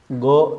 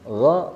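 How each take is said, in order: First: The first consonant is a hard stop like G. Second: The first consonant flows without a full closure. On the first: The speaker calls it wrong. "Kalau ditempelkan akan bunyi huruf G dan dia akan mempunyai sifat baru yaitu kolkolah" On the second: The speaker calls it right. "Jangan ditemukan atau jangan ditempelkan ke langit-langit mulut yang lunak"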